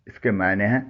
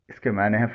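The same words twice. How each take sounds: The two takes are said the same way.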